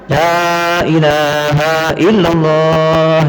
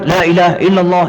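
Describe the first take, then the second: First: The opening 'la' is drawn out long. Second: The opening 'la' is kept short. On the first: The speaker calls it right. "coba bacaannya panjang" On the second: The speaker calls it wrong. "ini kok nabrak"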